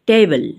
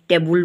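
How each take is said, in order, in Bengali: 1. দ্বিতীয় অক্ষরে একটি ক্ষীণ স্বরধ্বনি আছে। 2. দ্বিতীয় অক্ষরে একটি পূর্ণ 'u' স্বরধ্বনি আছে। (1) "আচলতে কি হয় জানানে? সেইটো টেবল।" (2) "টেবুল বুলি কৈ থৈ দিওঁ"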